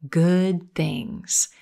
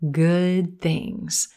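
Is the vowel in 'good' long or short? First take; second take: short; long. First: The vowel in good is clipped short. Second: The vowel in good is held longer. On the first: The speaker calls it wrong. "Your tendency might be to pronounce this sound too short" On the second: The speaker calls it right. "we're going to hold the vowel a little bit longer"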